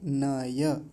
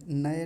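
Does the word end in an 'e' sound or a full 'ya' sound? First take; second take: ya sound; e sound. First: The word ends in a full 'ya' syllable. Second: The word ends in a plain 'e' vowel. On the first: The speaker calls it right. "न भी पूरा है, य भी पूरा है" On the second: The speaker calls it wrong. "कई बार नए जैसा बोल दिया जाता है। अग्नि नए नए नहीं"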